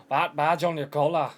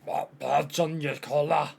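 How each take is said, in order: First: Louder put-on Scottish accent attempt; loud, rough go at a Scottish character. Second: Slow, wobbly Scottish accent attempt; drawn-out mock-Scottish character voice. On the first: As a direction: push the mock-Scottish voice out loud. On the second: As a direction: try out a put-on Scottish voice, slowly. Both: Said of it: "I think I've devolved Scottish".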